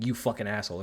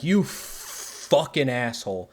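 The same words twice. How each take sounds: First: Said in the usual way. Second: Mock insult. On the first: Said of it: "and that means fucking". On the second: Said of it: "Deck is just like".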